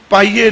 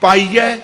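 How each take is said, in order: First: ਪਾਈਏ ending in a close e; mispronunciation shown. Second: ਪਾਈਐ ending in an open ai; careful correct pronunciation. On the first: Preacher rejecting a misreading, closed-e ending. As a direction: finish ਪਾਈਏ on ay, not open ai. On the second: Preacher giving the proper reading, open-ai ending. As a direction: open the last vowel of ਪਾਈਐ, tune rising. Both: Shown as a demonstration. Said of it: "ਪਾਈਏ ਨਹੀਂ".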